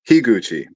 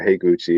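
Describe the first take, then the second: First: The first syllable sounds like 'hee'. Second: The first syllable sounds like 'hay'. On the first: The speaker calls it right. "Shinji Higuchi. Okay" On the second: The speaker calls it wrong. "or Heiguchi, and it's like, no, that's not right"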